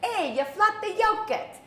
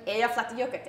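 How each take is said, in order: First: It is said in a Boston accent. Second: It is said in a plain accent.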